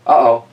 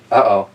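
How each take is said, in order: Both takes have the same delivery.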